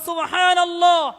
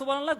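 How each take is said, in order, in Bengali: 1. এটি ধীরে ও যত্ন সহকারে বলা হয়। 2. এটি দ্রুত ও অযত্নে বলা হয়। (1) "পড়তে হবে ... একটু দয়া নিয়ে পড়েন" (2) "আপনি যে পড়তেছেন ... এরকমের পড়া যাবে না"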